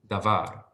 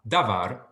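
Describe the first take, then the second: First: The stress is on the last syllable. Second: The stress is on the first syllable. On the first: The speaker calls it right. "var does receive the emphasis" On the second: The speaker calls it wrong. "it's not davar"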